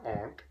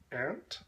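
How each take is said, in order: First: Aunt said ahnt with an open ah; aunt rhymes with want; aunt with broad ah. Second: Aunt said like the insect ant, with a flat A; aunt rhymes with pant. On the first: Other way of saying aunt, with a broad ah. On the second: First take of aunt, said like the insect ant. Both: Shown as a demonstration. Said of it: "or aunt".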